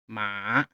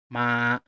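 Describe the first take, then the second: First: The pitch dips down then rises again. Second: The pitch stays level and steady. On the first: "goes down and up" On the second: "Keep your throat level on the first tone"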